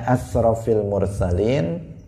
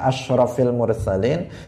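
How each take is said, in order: First: The first word has a plain 's' sound. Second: The first word has a 'sh' sound. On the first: The speaker calls it wrong. "dia mengucapkannya asrafil mursalin" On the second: The speaker calls it right. "harusnya dia mengatakan asyrafil mursalin"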